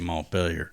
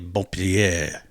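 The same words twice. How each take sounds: First: It is said the Irish way. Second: It is said the French way.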